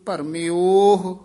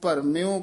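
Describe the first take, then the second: First: The word ends with an audible h sound. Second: The word ends without any h sound. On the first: The speaker calls it right. "ਭਰਮਿਓਹ ਉਚਾਰਨ ਕਰਨਾ" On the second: The speaker calls it wrong. "ਆਮ ਪਾਠੀ ਸਿੰਘ ਹਾਹਾ ਛੱਡ ਹੀ ਜਾਂਦੇ ਹਨ"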